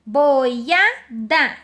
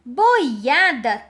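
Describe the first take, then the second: First: BOIADA broken as "boi... a... da"; three separate beats on boiada; split into syllables. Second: Said in the usual way. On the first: Shown as a demonstration. Teacher dividing the example word, syllable by syllable. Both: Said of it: "deve separar duas vogais mais uma".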